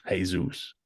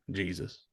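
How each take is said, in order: First: Jesus said as Hey-zoos, Spanish style. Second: Said in the usual way. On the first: Shown as a demonstration. Joking host says Jesus the Spanish way.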